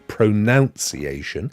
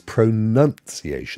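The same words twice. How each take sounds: First: The second syllable sounds like 'noun'. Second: The second syllable sounds like 'nun'. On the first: The speaker calls it wrong. "it is not pronunciation" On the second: The speaker calls it right. "There's a nun in there"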